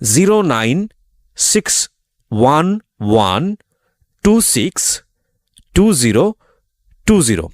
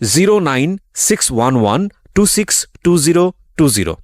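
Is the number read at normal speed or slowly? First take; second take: slowly; normal speed. First: The number is read slowly. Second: The number is read at normal speed.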